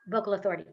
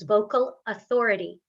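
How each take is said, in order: First: The name is said quickly and rushed. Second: The name is said slowly and deliberately. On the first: The speaker calls it wrong. "It's not" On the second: The speaker calls it right. "Signpost it"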